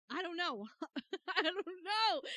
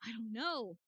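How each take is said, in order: First: Louder, testing a character voice; trying out voices. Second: Said in the usual way. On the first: Shown as a demonstration. Streamer testing a voice for Grossberg, louder each try. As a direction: search for the old lawyer's voice out loud. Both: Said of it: "What voice do I want to give him?".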